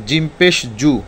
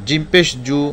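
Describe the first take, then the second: No difference in how they are said.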